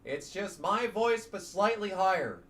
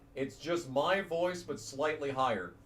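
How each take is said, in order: First: The voice is pitched slightly higher. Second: The voice is at its normal pitch.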